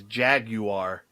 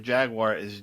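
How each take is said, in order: First: "Jaguar" in three syllables, JAG-you-ar; British pronunciation. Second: Said in the usual way. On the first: Shown as a demonstration. Reading out the British pronunciation, "Jaguar" as JAG-you-ar. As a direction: sound a clear "you" inside "Jaguar", JAG-you-ar. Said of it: "the British pronunciation of Jaguar is". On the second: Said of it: "British pronunciation of Jaguar".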